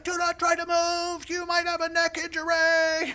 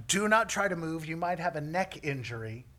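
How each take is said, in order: First: High, loud shout from afar; imitating a rescuer yelling as he runs up; yelling paramedic. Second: Milder replay of the urgent warning; toned-down imitation of a yell; mock paramedic. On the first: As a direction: holler a warning across a distance. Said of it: "he's still yelling as he comes". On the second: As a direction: recite the order in mock seriousness. Repeats paramedic's words, milder, mocking.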